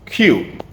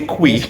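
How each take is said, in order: First: The word sounds exactly like the letter Q. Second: The word does not sound like the letter Q. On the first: The speaker calls it right. "exactly the same way you pronounce the word Q" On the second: The speaker calls it wrong. "you're tempted to want to say qui"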